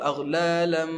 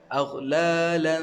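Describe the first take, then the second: First: The ending is nasal with the lips closed. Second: The ending is nasal with the mouth open. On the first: The speaker calls it wrong. "jangan kita tutup aghlalam. Itu kita dah dengung pada huruf mim" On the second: The speaker calls it right. "jangan tutup mulut"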